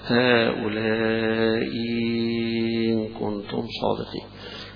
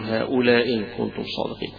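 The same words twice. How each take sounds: First: The second hamza becomes a long, stretched ya. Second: The first of the two hamzas is dropped. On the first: "بإبدالها حرف مد مشبع زي الأزرق" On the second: "بإسقاط الأولى زي أبو عمرو"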